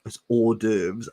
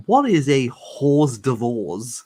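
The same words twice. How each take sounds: First: "hors d'oeuvres" said or-DERVZ, the French way; the wife's correct "hors d'oeuvres", or-DERVZ; correct pronunciation. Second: "hors d'oeuvres" said slowly as hoss-TIV-oz, spelled out; misreading a word. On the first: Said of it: "She was like". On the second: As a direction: read "hors d'oeuvres" letter by letter, slow and puzzled. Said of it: "I was like". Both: Retold or imitated.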